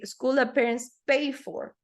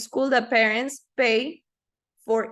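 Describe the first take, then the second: First: Pay and for are joined into one unit. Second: Pay and for are said as separate words. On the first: The speaker calls it right. "Pay for is almost like it was one" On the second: The speaker calls it wrong. "You don't say"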